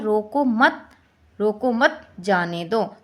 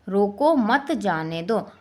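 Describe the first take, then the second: First: "रोको मत" held together, then a break before "जाने दो"; group "रोको मत", pause, then slowly "जाने दो"; comma pause demo. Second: Slow, "रोको" set apart from "मत जाने दो"; comma pause demo. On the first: Teacher shows the opposite meaning, pausing after "मत". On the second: Teacher shows how a comma changes meaning, pausing after "रोको". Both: Shown as a demonstration. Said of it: "विराम चिन्ह लगाने से अर्थ".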